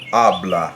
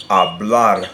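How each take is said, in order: First: "habla" with a firm first syllable and a light, unstressed ending; "habla", punched on the opening A; stress on first syllable. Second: "hablar" with a light first syllable and a loud, firm last one; stress on last syllable. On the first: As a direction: stress the first syllable of "habla", let the last one fall away. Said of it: "natural stress is on that first syllable". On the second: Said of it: "stress will be on the very last syllable". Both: Shown as a demonstration.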